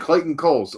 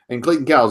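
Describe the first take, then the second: First: The surname's vowel sounds like 'coal'. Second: The surname's vowel sounds like 'cow'. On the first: The speaker calls it right. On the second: The speaker calls it wrong.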